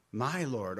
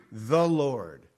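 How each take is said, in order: First: "my Lord" with the weight on "my", falling; stress on MY. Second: Said in the usual way. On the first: Shown as a demonstration. Preacher contrasting "the Lord" with a personal "my Lord", stressed. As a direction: lean into "my" to show possession. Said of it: "I wanna write down "my Lord". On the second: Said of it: "I don't wanna write down "the Lord".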